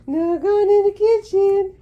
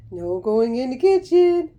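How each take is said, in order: First: A higher, slower singsong warning to the bird; high, slow sing-song scold. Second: Said in the usual way. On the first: Shown as a demonstration. Owner to parrot heading for kitchen, high slow singsong scolding. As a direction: raise the voice high and drag it out slowly.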